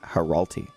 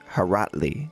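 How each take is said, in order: First: The L sound comes before the T sound. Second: The T sound comes before the L sound. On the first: The speaker calls it wrong. "I put the L before the T for my whole life" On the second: The speaker calls it right. "It's Haratli"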